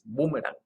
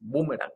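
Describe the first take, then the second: First: The stress falls on the syllable with 'u'. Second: The same.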